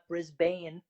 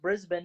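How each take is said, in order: First: The last syllable is full, like 'bane'. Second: The last syllable is reduced and quick. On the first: The speaker calls it wrong. "not Brisbane" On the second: The speaker calls it right. "I know it's pronounced Brisbane"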